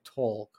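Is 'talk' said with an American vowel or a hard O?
hard O. The vowel is a hard, rounded O. "Not like talk"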